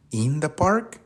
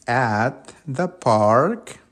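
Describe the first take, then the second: First: Testing guess. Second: Very slow, word by word, stress on "At"; slow teacher model of the right phrase; correct answer, slow. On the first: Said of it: "No, ¿cierto?". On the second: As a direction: set it right for the class slowly. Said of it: "¿Cómo es entonces?". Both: Shown as a demonstration.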